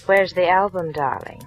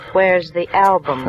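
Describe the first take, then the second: First: Said in the usual way. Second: Slower and louder, pressing the question; insistent repeat. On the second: Acted. Marla pressing Harry for the album, slow and insistent. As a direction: lean on it, drawn out, demanding now.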